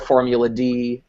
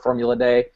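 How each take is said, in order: First: The last word is said as the plain letter name. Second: The last word is said like the word day. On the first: This is the usual name of the game. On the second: This is how a fictional character says the name.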